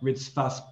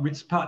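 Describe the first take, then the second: First: The middle consonant is an f sound. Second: The middle consonant is a p sound. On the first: The speaker calls it right. "you'd expect to see a dagesh in the pay, but you don't" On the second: The speaker calls it wrong. "it's not Ritzpat"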